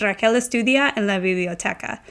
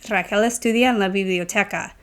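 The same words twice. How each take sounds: First: Said in the usual way. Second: "Raquel estudia en la biblioteca?" said as a question, rising at the end; teacher demoing the question tune; question rise. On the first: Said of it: "if I say the statement". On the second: Shown as a demonstration. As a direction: ask it, lifting the last word.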